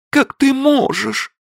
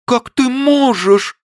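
First: Very high slow plea, stress on Как; reproach. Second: Very high slow plea, stress on можешь; louder reproach. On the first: Li reproaches Abe, stress on Как. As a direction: lean on Как in hurt reproach. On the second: Li repeats her reproach, stress on можешь. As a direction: hit можешь harder, louder. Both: A narrator's reading.

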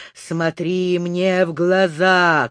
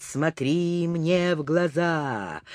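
First: Said in the usual way. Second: Soft, slow hypnotic «Смотри мне в глаза»; hypnotic murmur. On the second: Acted. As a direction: say «Смотри мне в глаза» softly and slowly, stressing «мне». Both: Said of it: "стал негромко повторять".

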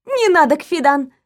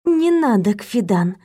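First: Curt and sharp refusal. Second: Gentle, softened refusal; softer. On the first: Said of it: "отреагировала я гораздо резче". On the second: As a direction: say it softly to calm her. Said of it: "произнесла я уже мягче". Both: A narrator's reading.

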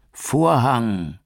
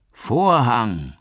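First: High, loud long "Vorhang" dropping away; falling scream. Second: High, loud falling call of "Vorhang"; theatrical call. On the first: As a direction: scream the word as he falls. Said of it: "schrie er". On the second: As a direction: announce the final curtain like an actor. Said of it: "rief Gabriel". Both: A narrator's reading.

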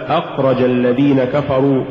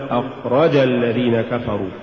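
First: Said in the usual way. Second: أخرج الذين كفروا with too much stress on the ra; أخرج sounding dual, accent on رَ; overstressed ra. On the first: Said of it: "الصواب". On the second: Shown as a demonstration. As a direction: punch the رَ in أخرج. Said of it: "هو زيادة نبرة الراء".

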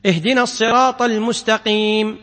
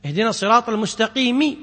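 First: المستقيم ending in a silent م with no vowel; stop on sukun. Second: المستقيم ending in a clear kasra, المستقيمِ; full final vowel. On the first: Teacher showing students the sukun stop, cutting the final vowel. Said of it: "لكن تقف على السكون". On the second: Teacher showing students the original vowelled ending before the stop. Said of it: "أصلها". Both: Shown as a demonstration.

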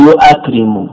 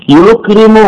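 First: "يؤكرم" as yu'akrimu, hamza sounded; original form with hamza. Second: "يكرم" as yukrimu, without a hamza; shortened form. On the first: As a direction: put a glottal stop plus a into "يؤكرم": yu-'a-krimu. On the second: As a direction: run "يكرم" straight from yu to krimu, no glottal stop. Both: Shown as a demonstration. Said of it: "أصله يؤكرم".

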